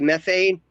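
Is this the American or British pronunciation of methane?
American. It is said with an American pronunciation. This is how people here say it. "in this country we say methane"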